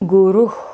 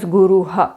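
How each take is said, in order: First: The word ends in a plain breathy h. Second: The final h is followed by an a vowel. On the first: The speaker calls it right. "is the correct pronunciation" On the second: The speaker calls it wrong. "Definitely don't pronounce this as"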